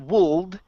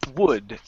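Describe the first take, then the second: First: The L sound is pronounced. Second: The L sound is silent. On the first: The speaker calls it wrong. "don't pronounce the L. It's not wold" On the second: The speaker calls it right. "the L is silent. It's would"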